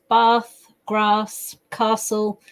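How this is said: It is said in a southern English accent.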